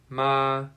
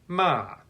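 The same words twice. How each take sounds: First: The pitch stays high and level. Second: The pitch falls sharply from high to low. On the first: "The first tone is high" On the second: "the fourth tone is falling"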